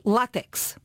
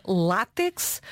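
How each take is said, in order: First: Látex said as la-TEX, with the stress moved to the end; stress on last syllable. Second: Látex with stress on the opening LÁ, open a; stress on first syllable. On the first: Host offers the unaccented version, látex stressed at the end. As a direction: say látex without the accent, hitting the final syllable. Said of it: "ou é sem acento". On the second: Host asks about the accent, saying látex stressed on the first syllable. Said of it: "tem um acento no A". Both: Shown as a demonstration.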